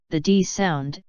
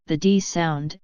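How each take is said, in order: Both takes have the same delivery.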